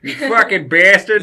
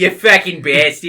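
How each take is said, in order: First: Loud, high mock Boston yell; hammed-up Boston accent, much louder; fake Boston accent. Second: Loud mock Boston accent; hammed-up Boston accent, louder; fake Boston accent. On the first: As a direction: ham up a Boston curse, shouting. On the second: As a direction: echo the curse in a bad Boston voice. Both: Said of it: "fake Boston slang".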